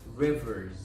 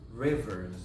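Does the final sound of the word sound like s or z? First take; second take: z; z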